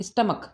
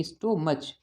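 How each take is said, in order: First: स्टमक said correctly, "stum-uk" with a short u and a hard k at the end; correct pronunciation. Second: स्टोमच said the wrong way, "sto-mach" with a long o and a ch at the end; wrong pronunciation. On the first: Teacher to Class 8 students, giving the correct स्टमक as stum-uk. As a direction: say स्टमक properly as stum-uk, ending on k. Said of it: "इसे पढ़ते हैं स्टमक". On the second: Teacher to Class 8 students, showing the common misreading स्टोमच as sto-mach. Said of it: "इसे बिल्कुल भी स्टोमच नहीं पढ़ते हैं". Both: Shown as a demonstration.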